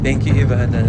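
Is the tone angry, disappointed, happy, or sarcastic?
happy. It is said in a happy, cheerful tone. "one happy"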